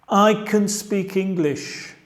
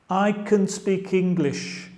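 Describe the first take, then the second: Both takes have the same delivery.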